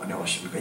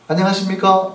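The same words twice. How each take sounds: First: It is said in a very low, deep voice. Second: It is said in an ordinary, higher voice. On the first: The speaker calls it right. "굉장히 낮은 목소리에 여자들이 반응한대요" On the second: The speaker calls it wrong. "이것보다는"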